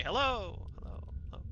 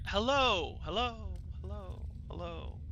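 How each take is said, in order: First: Fading echoed hellos. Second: Fading repeated hellos; echo. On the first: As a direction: call hello and let it fade. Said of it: "you guys hear [name] say". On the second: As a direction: let each hello fade away like an echo. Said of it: "Kind of a normal echo". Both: Acted.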